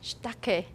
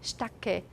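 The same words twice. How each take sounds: First: The vowel after sh is devoiced, sh lengthened. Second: The vowel after sh is devoiced, sh lengthened.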